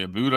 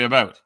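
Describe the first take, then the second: First: "a boot" with an oo vowel; "about" with oo, like "boot"; denied pronunciation. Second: Said in the usual way. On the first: Shown as a demonstration. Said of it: "I don't say". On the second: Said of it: "I say".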